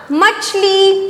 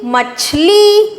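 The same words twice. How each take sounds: First: Said in the usual way. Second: Slow, higher drawn-out word; sounding out words. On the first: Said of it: "क्या शब्द बन गया?". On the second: Shown as a demonstration. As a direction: stretch it out with a lift. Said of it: "तो क्या शब्द बन गया?".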